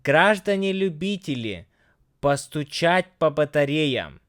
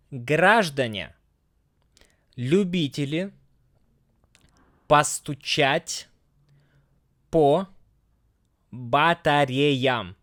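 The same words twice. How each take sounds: First: Smoother, quicker Russian reading; a little faster. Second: Slow, word-by-word Russian reading; slow careful reading. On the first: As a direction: read it through a bit faster. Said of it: "just a little bit faster". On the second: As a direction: read it slowly, pausing between words. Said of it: "And again, just a little bit faster". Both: Shown as a demonstration.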